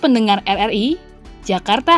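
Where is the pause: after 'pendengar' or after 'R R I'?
after RRI. There is a pause right after 'R R I'. The city of Jakarta is turning seventy-five.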